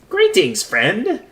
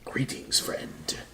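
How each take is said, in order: First: It is said in a put-on jester voice. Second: It is said in a plain, ordinary voice. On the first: The speaker calls it right. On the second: The speaker calls it wrong.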